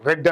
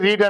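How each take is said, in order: First: The vowel is a short 'e' sound. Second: The vowel is a long 'ee' sound. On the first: The speaker calls it right. "దాన్ని ఎలా పలకాలంటే రీడ్ రెడ్ రెడ్ అని పలకాలి" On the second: The speaker calls it wrong. "రీడ్ రీడ్ రీడ్ అనే ఉంటుంది"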